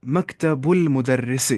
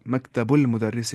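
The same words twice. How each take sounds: First: मकतबुल मुदर्रिस said slowly and syllable by syllable; model Arabic phrase. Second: Said in the usual way. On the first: Shown as a demonstration. Teacher modelling मकतबुल मुदर्रिस for the class, slow and clear. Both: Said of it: "मैं बोलूँगा".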